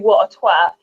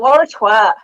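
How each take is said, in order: First: Both words of "what a" are said fully. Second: "What a" is run together as "wara". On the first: The speaker calls it wrong. "you wouldn't say what a twat" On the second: The speaker calls it right. "switch the word what a to wara"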